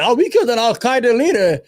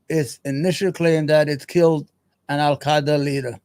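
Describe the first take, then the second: First: Higher, louder sneering mock of "killed"; mocking quote. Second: Said in the usual way. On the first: Streamer mocks the US military claim, higher and louder sneer. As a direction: toss the official claim back scornfully. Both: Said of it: "They lied".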